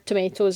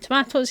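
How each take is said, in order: First: It is said with an American pronunciation. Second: It is said with a British pronunciation. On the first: This is how Americans say it. "if you're American" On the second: This is how people here say it. "but we call them tomatoes here"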